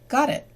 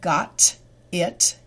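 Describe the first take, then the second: First: The T sounds like a D linked to the vowel. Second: The T is clear and the words stay separate. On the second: "in slow English"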